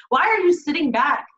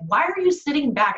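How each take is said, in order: First: Emotional plea. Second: Said in the usual way. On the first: Real, not acted. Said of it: "I'm getting emotional right now".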